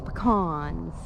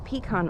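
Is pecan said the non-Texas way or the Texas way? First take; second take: Texas; non-Texas. First: The word has the Texas regional pronunciation. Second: The word has a non-Texas regional pronunciation.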